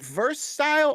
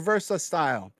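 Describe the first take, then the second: First: Verse is said with no added vowel. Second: Verse is said with an added 'a' vowel. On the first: The speaker calls it right. "is it verse style" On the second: The speaker calls it wrong. "the same thing with the A"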